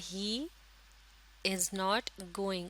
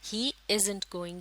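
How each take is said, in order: First: 'Is not' is said as two full words. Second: 'Is not' is shortened into one word.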